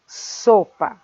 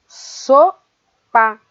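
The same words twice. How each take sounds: First: Said in the usual way. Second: "Sopa" split into SO, pause, PA; syllable by syllable. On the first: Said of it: "o exemplo da palavra sopa". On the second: Shown as a demonstration. Teacher dividing the word for pupils, syllable by syllable. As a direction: lift SO, pause, then drop onto PA in "Sopa". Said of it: "A sílaba so é aquela que nós pronunciamos".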